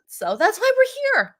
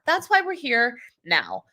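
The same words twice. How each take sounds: First: Upbeat. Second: Said in the usual way. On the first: Real, not acted. Wrapping up explanation.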